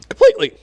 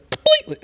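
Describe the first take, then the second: First: The word is said in a high-pitched voice. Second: The word is said in a normal voice.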